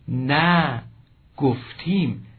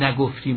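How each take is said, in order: First: The negative 'na' is said as a separate word. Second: The negative 'na' is joined onto the verb. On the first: The speaker calls it right. "حتماً باید این دو فعل به همین گونه خوانده شود که این کمترین میخواند" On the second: The speaker calls it wrong. "نخوانیم"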